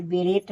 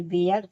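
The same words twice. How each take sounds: First: "बेरेट" with r and final t; T sounded. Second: "बेयर" with no final t; silent-t reading of "बेयर". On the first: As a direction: say "बेरेट" closing on t. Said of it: "इसे बेरेट नहीं". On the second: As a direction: say "बेयर", et ending dropped. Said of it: "टी यहाँ silent है". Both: Shown as a demonstration.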